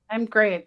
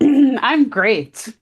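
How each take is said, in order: First: It is said flatly, without feeling. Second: It is said warmly, with more feeling.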